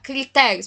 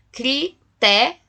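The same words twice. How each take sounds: First: Said in the usual way. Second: "crité-" broken into separate syllables, cri, té; "crité-" split as cri... té, left unfinished; divided into syllables. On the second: Shown as a demonstration. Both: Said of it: "eu vou dividir por sílabas".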